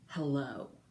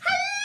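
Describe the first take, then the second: First: It is said in a serious, sober way. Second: It is said in a silly, playful way.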